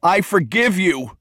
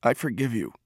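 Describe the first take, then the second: First: High, slow, drawn-out cry; raised, emphatic cry of forgiveness; crying out loudly. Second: Soft, hushed release; quiet forgiveness. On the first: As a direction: cry it out with full release. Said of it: "he cried loudly". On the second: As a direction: say it softly, as words long held back. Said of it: "words he had never been able to speak". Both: A narrator's reading.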